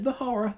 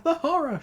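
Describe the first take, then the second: First: High panicked cry; first cry of terror; shrieking. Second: Even higher, louder shriek. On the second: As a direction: top the first cry, full panic. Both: A narrator's reading. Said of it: "shrieked Tails".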